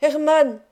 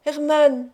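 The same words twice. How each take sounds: First: Loud, higher cry for Hermann; desperate cry. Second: Loud, higher second call for Hermann; desperate cry repeated. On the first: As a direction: call out from the locked trunk in terror. (appel désespéré et fort) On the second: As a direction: call out again, still unanswered. (second appel désespéré) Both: A narrator's reading. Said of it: "je me mis à crier de nouveau et à appeler Hermann".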